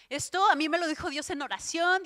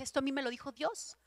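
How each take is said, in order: First: Louder, amazed, stressing "Dios" and "oración"; emphatic repeat. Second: Said in the usual way. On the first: Retold or imitated. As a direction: hammer home that God said it.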